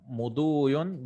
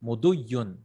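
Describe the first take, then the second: First: "muduyun" with a long u before the y; careful demonstration of "muduyun", long vowel, single y; original word form. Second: "muduyun" with the y held double; short second u, then lean on a long y in "muduyun"; careful demonstration of "muduyun" with two y sounds; doubled ya. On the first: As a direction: stretch the second u in "muduyun". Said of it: "it was actually muduyun". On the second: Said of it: "this became two yas". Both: Shown as a demonstration.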